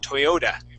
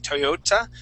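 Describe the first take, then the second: First: The final consonant is a soft D sound. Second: The final consonant is a clear T sound. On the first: The speaker calls it right. "We would say a D" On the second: The speaker calls it wrong. "we wouldn't pronounce that T like a, a T sound"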